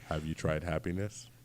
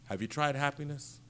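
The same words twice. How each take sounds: First: It is said in a creepy tone. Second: It is said in a plain, normal tone.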